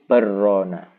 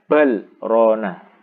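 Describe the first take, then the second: First: The l merges into a doubled r sound. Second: The l is clearly pronounced before the r. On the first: The speaker calls it wrong. "Nanti kalau baca idgham menjadi barrona" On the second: The speaker calls it right. "Idhar, bal rona, tidak dibaca idgham"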